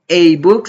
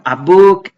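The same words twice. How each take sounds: First: The article is said with an 'ay' vowel. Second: The article is said with an open 'ah' vowel. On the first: The speaker calls it wrong. "no digo a book" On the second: The speaker calls it right. "la pronunciamos como la A del español"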